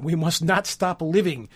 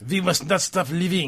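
First: Said in the usual way. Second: Put-on French accent. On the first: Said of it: "I wish I could read that". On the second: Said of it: "I wish I could read that in a French accent".

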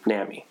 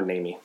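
First: "nami" with a short a, as in "nam-ee"; first syllable of "nami" like "nam"; short-a pronunciation. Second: "nami" with a long a, as in "nay-mee"; first syllable of "nami" rhymes with "day"; long-a pronunciation. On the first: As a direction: say "nami" to rhyme with whammy. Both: Shown as a demonstration. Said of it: "not sure how you pronounce it".

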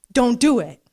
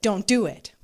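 First: Emphatic command. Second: Said in the usual way. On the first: Acted.

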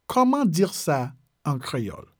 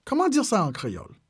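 First: "Comment dire ça", slight pause, "en créole"; measured, phrase by phrase for learners. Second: Said in the usual way. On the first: Shown as a demonstration. Teacher repeats French phrase slowly.

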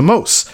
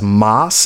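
First: Mose with a long o; correct name pronunciation. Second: Moss with a short open vowel; mispronounced name. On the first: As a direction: say Mose to rhyme with dose. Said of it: "as Moss, as opposed to Mose". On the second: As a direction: say Moss to rhyme with boss. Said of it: "as opposed to Mose". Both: Shown as a demonstration.

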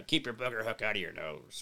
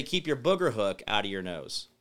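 First: Low, soft pirate voice, lightly done. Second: Said in the usual way. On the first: Pretend. Pitching a pirate shirt slogan to viewers, low pirate voice. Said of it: "a pirate hat and do, like, a". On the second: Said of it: "I'd say".

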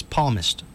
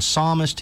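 First: "palmist" with the P sounded and no S; mispronounced psalmist. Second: Said in the usual way. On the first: Retold or imitated. Host mocks Biden attempting to quote the Bible, mispronounced "palmist". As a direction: say "palmist", imitating a misreading of psalmist. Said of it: "he says palmist". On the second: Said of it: "instead of saying psalmist".

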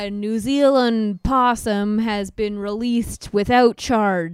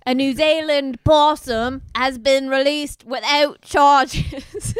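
First: Plain. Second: Higher, louder, giggling reread; the headline again, cracking up; laughing news read. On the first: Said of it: "we have breaking news for you". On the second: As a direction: fight back laughter on the headline. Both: Shown as a demonstration.

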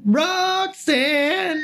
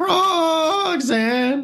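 First: Shrill high crow singing [name]; chirping bird person. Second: Long high crow wail of [name]; chirping bird person. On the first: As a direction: screech the name like a crow, very high. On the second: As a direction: hold the name out high like a bird cry. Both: Pretend. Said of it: "the crow call sounds like".

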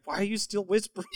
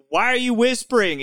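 First: Quick, soft, higher question; retold bafflement, fast and under the voice; hushed puzzled question. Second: Higher, full-voiced puzzled question; retold bewildered friend on the phone; baffled question. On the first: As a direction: ask it quickly and softly. Friend asks about whispering again.

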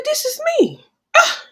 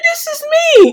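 First: High excited exclaim of recognition. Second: High, loud shocked realization; loud exclaim. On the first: To herself at the abuse training, a high shocked exclaim. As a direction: cry out the discovery, pitched way up. Realizing she is the abused one. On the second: To herself at the training, a loud high exclaim. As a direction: shout out the discovery. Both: Retold or imitated.

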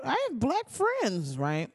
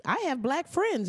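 First: Slow, much higher mocking drawl; sarcastic mockery. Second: Quick, higher defensive excuse; mock coach excuse. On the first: Comedian mocking the coach's excuse, slow sarcastic drawl. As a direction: parody the excuse, dragging it out. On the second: Coach excusing himself to the press, higher mock defensive.

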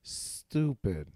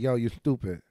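First: "stupid" with a long careful S, then the rest; slow right down and hold the S of "stupid". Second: "stupid" with a lisped S escaping through the nose; nasal lisp. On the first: Kid avoiding his lisp, slow deliberate S in "stupid". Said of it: "mentally would slow down for that word". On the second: Man showing his childhood lisp, nasal S on "stupid". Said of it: "mine used to come out my nose". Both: Shown as a demonstration.

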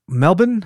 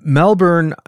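First: "Melbourne" said as MEL-bin, without the R; Australian pronunciation. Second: "Melbourne" said with its R sounded; Melbourne pronunciation attempt. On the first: Host checks how Australians say it, MEL-bin pronunciation. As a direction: swallow the second syllable of "Melbourne", questioning. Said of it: "I think they say Melbourne in Australia". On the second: Host first tries the Australian city's name, R-coloured pronunciation. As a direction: say "Melbourne" as spelled, MEL-bern. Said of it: "I think they say Melbourne". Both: Shown as a demonstration.

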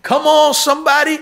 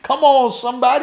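First: Much higher, louder rallying cry; calling out harder. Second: Calling out. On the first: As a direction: push the call up to a shout. Repeated call, even higher. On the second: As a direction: rouse the congregation. Preacher calling to the congregation. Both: Real, not acted.

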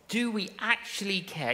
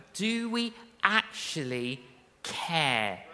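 First: "Do" hit first, "Do we actually care?" quicker; stress on do. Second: Slow, leaning on "we" in "do we actually care?"; stress on we. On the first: Preacher repeating the question, "Do" stressed. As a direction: punch the word "Do". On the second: Preacher asking the church, "we" stressed slow. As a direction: weigh the word "we", slowly. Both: Shown as a demonstration.

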